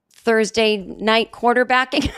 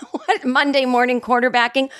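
First: Said in the usual way. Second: Laughs at herself, then corrects to Monday morning quarterbacking; laughing correction. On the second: Real, not acted. Podcaster correcting her own idiom, laughing. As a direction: catch the slip with a real laugh.

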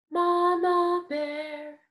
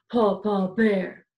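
First: Slow, higher mama bear voice. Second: Lower, louder big bear voice; Papa Bear voice. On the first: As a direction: stretch it out like a kind mama bear. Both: Shown as a demonstration.

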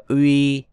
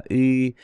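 First: Uy as a glide from u into i; wrong gliding Uy. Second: Y as one steady ü sound with rounded lips; correct rounded ü. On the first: Teacher warns against this reading, Uy gliding from u to i. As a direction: let the lips move from rounded to spread on Uy. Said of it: "Uy là bị sai". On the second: Teacher shows the right reading, Y as one unchanging rounded vowel. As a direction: keep the lips fixed and round throughout Y, like ü. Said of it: "Bắt buộc phải tròn môi thì mới đọc được". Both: Shown as a demonstration.

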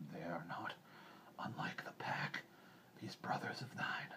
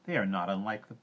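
First: Hushed, breathy wolf voice; soft, whispered animal voice; composed old wolf. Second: Said in the usual way. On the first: A narrator's reading. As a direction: half-whisper it as a calm wolf. Restarts as Akela, composed wolf.

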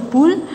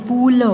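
First: Said in the usual way. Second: पुल drawn out in two sounds; syllable by syllable. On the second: Shown as a demonstration. (पुल को तोड़ कर) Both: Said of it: "फिर ये सारे बोलने".

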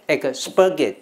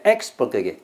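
First: "expurgate" said as ek-SPUR-gate; stress before the S. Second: "expurgate" said as EX-pur-gate; stress at the front. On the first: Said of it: "重音在死的面前". (expurgate 重音放在 spur) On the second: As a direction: hit the opening EX of "expurgate". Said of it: "那是重音在前面". (expurgate 重音放在最前面的 ex) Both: Shown as a demonstration.

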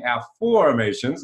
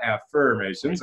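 First: "affirmations" said af-FORM-ations, middle syllable like the word form. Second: "affirmations" said the usual way, af-FIRM-ations with the er of firm; plain "affirmations" as in affirm, the wrong take. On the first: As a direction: stress "form" in "affirmations", a clear or vowel as in form. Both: Shown as a demonstration. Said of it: "we are saying affirmations, not affirmations".

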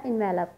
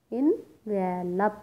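First: Said in the usual way. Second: Envelop very slowly in three parts, en, ve, lop; syllable by syllable. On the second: Shown as a demonstration. Teacher counts syllables for students, envelop split slowly in three. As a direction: break envelop into en, ve, lop with gaps, en rising. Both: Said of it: "three sounds create हुई हैं".

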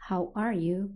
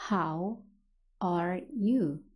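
First: Said in the usual way. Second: Slow, separated words with pauses. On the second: Shown as a demonstration. English teacher models a greeting for learners, word by word. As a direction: say it slowly, one word at a time.

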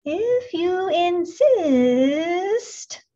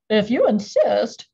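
First: Very slow, high hissing drawl; snake voice. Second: Loud, odd crustacean voice; gruff sea creature accepting; lobster voice. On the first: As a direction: stretch it out like a snake. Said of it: "said the snake". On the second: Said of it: "said the lobster". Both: A narrator's reading.

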